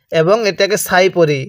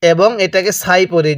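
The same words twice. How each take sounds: The two takes are said the same way.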